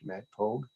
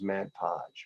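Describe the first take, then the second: First: The name ends with a hard g sound. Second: The name ends with a j sound. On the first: "you said Mad Pogue" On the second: "I thought it was Mad Podge"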